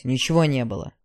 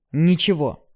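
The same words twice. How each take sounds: First: Low, pressed and firm; firm denial. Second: Ничего shouted, much louder, falling; shouted denial. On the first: Ignat warning Yara to forget last night, firm and low. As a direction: lean hard on ничего, falling. Ignat insisting nothing happened. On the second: Ignat cutting Yara off, shouting the last word. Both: A narrator's reading.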